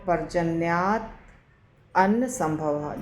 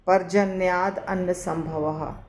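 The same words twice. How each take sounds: First: The words are split into three separate words. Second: The words run together as one long word. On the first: "इसको तीन शब्दों में हम विच्छेद करेंगे" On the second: "बहुत डिफ़िकल्ट होगा बोलना"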